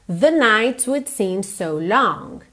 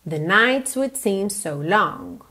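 Both takes have the same delivery.

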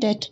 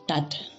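First: The vowel is an e sound. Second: The vowel is an open a sound. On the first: This is the local dialect form. "sondern det" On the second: This is the form used in other northern dialects. "Wir sagen nicht dat"

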